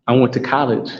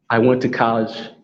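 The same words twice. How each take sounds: The two takes are said the same way.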